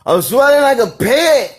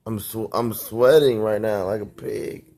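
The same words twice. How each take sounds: First: Very high, loud cartoonish whine; exaggerated silly voice. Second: Said in the usual way. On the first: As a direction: ham it up like a whining cartoon. Exaggerated repeat of complaint.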